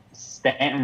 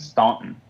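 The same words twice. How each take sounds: First: "Stanton" with a short flat a, as in "stand"; local pronunciation. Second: "Staunton" with an aw vowel, as in "haunt"; spelled-out pronunciation. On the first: Telling co-hosts the hometown, local pronunciation "Stanton". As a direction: say "Stanton" with the vowel of "can". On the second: Giving co-hosts the town's other name, spelled-out pronunciation "Staunton". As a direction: say "Staunton" as it is spelled, STAWN-tun. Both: Shown as a demonstration. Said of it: "also known as Staunton".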